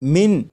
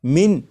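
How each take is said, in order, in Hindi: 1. आख़िरी n साफ़ बोला जाता है। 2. आख़िरी n साफ़ बोला जाता है।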